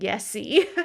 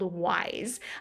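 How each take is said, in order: First: The name is said as 'yessy'. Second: The name is said as 'wise'. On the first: The speaker calls it wrong. "I was saying Yesy" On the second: The speaker calls it right. "it's called Wise"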